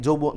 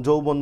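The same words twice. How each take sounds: The two takes are said the same way.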